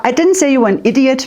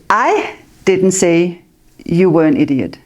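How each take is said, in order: First: The word 'idiot' carries the main stress. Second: The word 'I' carries the main stress. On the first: A different insult was used. "maybe I said crazy, but not idiot" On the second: Someone else said it. "But somebody else said it"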